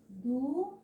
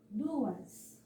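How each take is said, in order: First: Du-as with a rising DU, a pause, then AS; syllables separated. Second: Said in the usual way. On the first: Shown as a demonstration. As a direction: split Du-as into two separate syllables. (Du-as, sílaba por sílaba) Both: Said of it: "Na hora de separar as sílabas".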